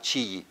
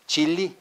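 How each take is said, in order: First: "chilli" with the L's turned into a Y; mispronounced "chilli" with a Y glide; Spanish-style double L. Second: "Chili" with the two L's sounded as L; "Chili" pronounced chil-li; double L as L. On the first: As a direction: say "chilli" as chee-yee, the wrong way. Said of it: "Not chilli". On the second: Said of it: "two L's is like two L's". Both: Shown as a demonstration.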